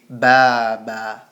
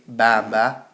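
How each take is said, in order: First: The ah vowel is said long. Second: The ah vowel is said short. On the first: The speaker calls it right. "we say; it's a long vowel" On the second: The speaker calls it wrong. "We don't say"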